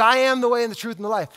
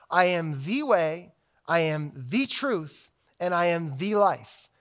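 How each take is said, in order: First: Rattled off quickly; fast recitation. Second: Each "I am the way" said slowly and weighted; slow down so they hear every word; slow, deliberate. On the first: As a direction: rush through the familiar verse. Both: Shown as a demonstration. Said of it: "I want you to just to hear the claim".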